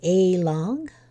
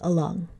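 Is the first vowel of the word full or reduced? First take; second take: full; reduced. First: The first vowel is a full, unreduced sound. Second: The first vowel is reduced to a schwa. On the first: "it would take longer to say a long" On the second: "So to speed it up, we say along"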